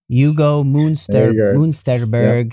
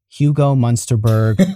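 First: The name is said with a German pronunciation. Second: The name is said with an American pronunciation. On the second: "I'm from New York. This is how I'm going to say these things"

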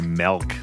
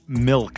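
First: The vowel sounds like 'eh', as in 'melk'. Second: The vowel sounds like 'ih', as in 'milk'. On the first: "I usually say milk, like M-E-L-K" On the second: "I want to say it properly"

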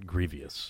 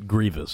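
First: The word is said with three syllables. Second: The word is said with two syllables. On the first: The speaker calls it wrong. "not grievious" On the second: The speaker calls it right. "And it's grievous"

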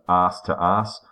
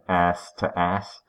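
First: It is said in an Australian accent. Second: It is said in an American accent.

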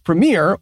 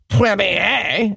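First: It is said the usual English way. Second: It is said the way Quebecers say it.

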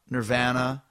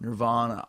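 First: The vowel is said with a Canadian accent. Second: The vowel is said with an American accent. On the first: "Just like in Canada, you say" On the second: "Here it's"

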